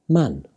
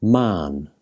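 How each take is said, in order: First: Man with a short, quick "a"; short vowel. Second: Man with a long, drawn-out "aa"; long vowel. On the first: Teacher contrasting similar words, Man said with short vowel. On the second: Teacher contrasting similar words, Man said with long vowel. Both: Shown as a demonstration. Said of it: "sound quite different".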